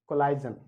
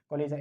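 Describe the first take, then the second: First: The middle sounds like 'ize' with a long vowel. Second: The middle sounds like 'izh' with a buzzing zh. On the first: The speaker calls it wrong. "कोलिशन या कोलाइजन गलत होता है" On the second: The speaker calls it right. "इसको बोलते हैं कोलिजन"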